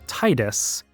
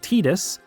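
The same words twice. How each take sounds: First: The first syllable sounds like the word tide. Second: The first syllable does not sound like tide. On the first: The name is taken to come from the word tide. The speaker calls it wrong. "read it as" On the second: This is the official way to say the name. The speaker calls it right. "the official English pronunciation is"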